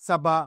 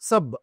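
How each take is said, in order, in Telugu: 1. ఈ పదం చివర ఒక అచ్చు కలిపి ఉంటుంది. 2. ఈ పదం అచ్చు లేని హల్లుతో ముగుస్తుంది. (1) "సభ అని పలకకూడదు" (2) "సబ్ అని అంటాం"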